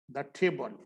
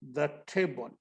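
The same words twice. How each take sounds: First: "the table" again, short "the"; teacher repeating softly; repeat model. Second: "the table" with short द sound; teacher's model; "the" before consonant. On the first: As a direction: echo it softly. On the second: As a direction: say "the" short and light. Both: Shown as a demonstration. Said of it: "the before a consonant".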